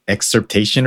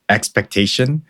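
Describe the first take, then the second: First: "excerptation" said in place of expectation; mispronunciation. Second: Said in the usual way. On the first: Shown as a demonstration. Guest shows co-host his slip on expectation, mispronounced as "excerptation". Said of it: "I pronounced it like". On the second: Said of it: "when I mispronounced expectation".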